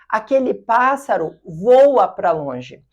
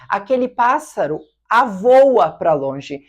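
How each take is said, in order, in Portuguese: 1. O verbo começa diretamente com o som v. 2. Um som a extra vem antes do verbo.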